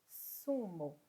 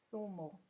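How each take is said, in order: First: The first sound is an 's' sound. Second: The first sound is a 'th' sound. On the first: This is how it is said in the Americas. "como se fosse o S" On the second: This is how it is said in parts of Spain. "como se fosse o T H do inglês"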